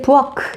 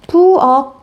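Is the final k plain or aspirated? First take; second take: aspirated; plain. First: The final consonant is an aspirated k. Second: The final consonant is a plain closed k. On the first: The speaker calls it wrong. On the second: The speaker calls it right.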